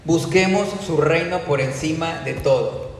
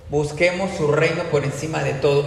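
First: Slow, weighty, each word stressed; slow emphatic statement. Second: Reino leaned on in an even repeat; stress on reino. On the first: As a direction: lay it down slowly as the main point. (lento y enfático, cada palabra marcada) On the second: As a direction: repeat it plainly, hitting reino. (repetición normal con énfasis en reino) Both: Shown as a demonstration. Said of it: "Punto número uno".

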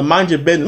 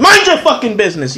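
First: Said in the usual way. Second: Raised, higher-pitched outburst; yelling. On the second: Retold or imitated. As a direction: snap it out like you want to yell. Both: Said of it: "I wanna start yelling and tell".

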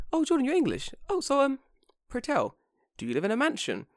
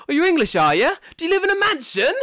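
First: High, dainty questioner voice; polite imitated inquirer. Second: Very high, loud caricature voice; exaggerated mocking questioner. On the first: Acquaintance innocently asks Jordan about home, high polite imitation. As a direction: put on a harmless, curious lilt, high-pitched. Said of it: "She probably said it as like". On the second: How Jordan heard the question, loud high mocking caricature. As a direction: blare it as an outrageous taunt, squealing high. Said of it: "in my mind, I heard it as".

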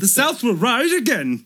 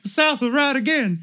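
First: High, slow cartoon drawl; the corrected Dudley take, slower; Dudley impression. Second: Very high, loud character voice; a bungled Dudley that lands elsewhere; wrong-guy voice. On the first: The right take of the brother's line, high slow Dudley voice. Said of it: "I was trying to do a Dudley do-right". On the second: Retold or imitated. Brother declaring, very high loud cartoon voice. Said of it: "he's like".

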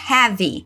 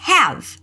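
First: "have" said "révi", with an added final i; the wrong "have" with an extra vowel at the end; wrong pronunciation. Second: "have" said slowly as "hɛv", ending on the v; the correct "have", no final vowel; right pronunciation. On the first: ("have" errado, com i no final) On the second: ("have" certo, terminando em v) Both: Shown as a demonstration. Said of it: "diquinha de pronúncia".

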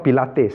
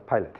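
First: Pilates said as the exercise, pi-LAH-teez; wrong name on purpose. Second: Pilate said as PIE-lut, two syllables, no final s; correct name. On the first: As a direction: say Pilates like the fitness class, stress on LAH. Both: Shown as a demonstration. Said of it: "Not Pilates, huh?".

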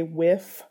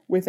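First: "whiff" said with a clear F sound at the end; imitating her son saying "whiff" with an F at the end; son's f for th. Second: Said in the usual way. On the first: Shown as a demonstration. Demonstrating for the interviewer how her son says "with", an F in place of th. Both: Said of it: "with an F at the end instead of with".

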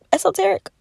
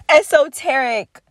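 First: High, doubtful rising question; unsure question. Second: Said in the usual way. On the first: Real, not acted. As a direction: check the word, unsure. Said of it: "is that the word". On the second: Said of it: "I believe that's the word".

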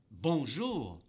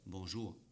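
First: BONJOUR punched loud with a big pitch swing; stressed BONJOUR. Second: Said in the usual way. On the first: Shown as a demonstration. Coach showing the difference an accent makes, stressed BONJOUR. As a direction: hit BONJOUR hard and stretch it. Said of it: "il y a une différence". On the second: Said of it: "Comme si je dis".

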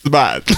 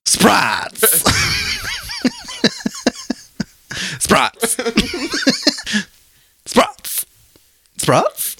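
First: Spot said cleanly, no r; correction. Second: Sprots said with an r for spots; mispronounced word. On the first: Shown as a demonstration. Host correcting Sprots to Spot. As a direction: say Spot plainly. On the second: Real, not acted. Cohost mangling spots as Sprots, giggling. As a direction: say Sprots with an extra r.

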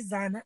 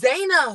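First: "Zana" said with a flat short a, like "ZAH-nah"; wife's name first said as "Zana", with a short a; wrong name. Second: "Zayna" said with a long a, like "ZAY-nah"; "Zayna" slowly repeated back, long ay sound; corrected name. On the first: Retold or imitated. Host introducing her guest on the show, saying "Zana". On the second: Shown as a demonstration. Host repeating her guest's corrected name, saying "Zayna" slowly. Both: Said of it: "so it's Zayna".

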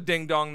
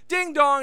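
First: Said in the usual way. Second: Sing-song DING DONG, higher on DING; a bright two-note "ding dong"; imitated doorbell. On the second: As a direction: chime it out like a doorbell. Acting out the doorbell.

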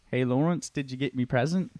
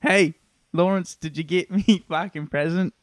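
First: Put-on retried take in a lightly done British accent. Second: Put-on cheeky mate, slipping into an Australian accent. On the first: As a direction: redo it as a Brit, not Australian. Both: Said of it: "Sorry, that was Australian".

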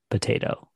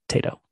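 First: Said in the usual way. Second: "Tato", potato without the first syllable; Irish short form. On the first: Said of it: "how people in Ireland say". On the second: Shown as a demonstration. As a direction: drop the "po" and say just "Tato". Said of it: "Like, they just say".

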